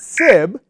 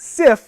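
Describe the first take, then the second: First: The word ends with a B sound. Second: The word ends with a voiceless F sound. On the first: "not sib" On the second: "not sif"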